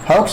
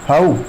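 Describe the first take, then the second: First: The word ends with a ks sound. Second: The word ends on a vowel sound. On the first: The speaker calls it wrong. "हाउक्स नहीं" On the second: The speaker calls it right. "एक्स इसमें silent है"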